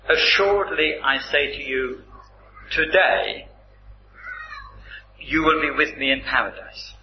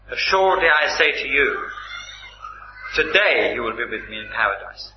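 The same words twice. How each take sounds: First: The pause comes after 'today'. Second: The pause comes before 'today'.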